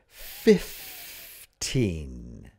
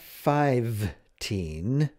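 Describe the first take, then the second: First: The first syllable sounds like 'fif'. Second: The first syllable sounds like 'five'. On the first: The speaker calls it right. "It's fifth. F I F" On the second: The speaker calls it wrong. "It's not five-teen"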